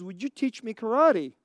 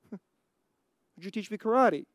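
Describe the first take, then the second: First: Said in the usual way. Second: Slow, softer plea broken by a laugh; a teasing slow retake of the kid's request; laughing mock plea. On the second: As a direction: repeat the boy's plea, drawn out and chuckling. Daniel's plea repeated with laughter.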